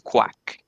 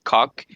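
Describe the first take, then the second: First: It is said with a kw sound, like quack. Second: It is said with a plain k and short o. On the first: The speaker calls it right. "it's quack, like a duck" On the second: The speaker calls it wrong. "it's not cock"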